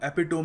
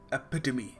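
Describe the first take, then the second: First: It has three syllables, ending in 'tome'. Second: It has four syllables, ending in 'tuh-mee'. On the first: The speaker calls it wrong. "हम एपिटोम नहीं कहेंगे" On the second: The speaker calls it right. "We will pronounce it एपिटमी"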